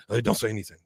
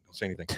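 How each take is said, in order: First: Said in the usual way. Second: Much softer, hushed repeat. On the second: Retold or imitated. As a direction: drop it to a hush. Head shop guy hushing Bobby.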